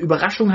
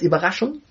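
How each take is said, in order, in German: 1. Der erste Vokal ist ein gerundeter ü-Laut. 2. Der erste Vokal ist ein ungerundeter i-Laut.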